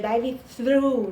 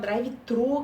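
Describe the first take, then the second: First: The th is said as an English dental fricative. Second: The th is replaced by a Portuguese-like sound. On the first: The speaker calls it right. "que na verdade seria drive-thru, né? Que é, é um fonema que a gente não tem" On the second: The speaker calls it wrong. "que a gente fala"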